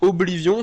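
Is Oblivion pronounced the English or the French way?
French. The name is pronounced the French way. "Je dis Oblivion"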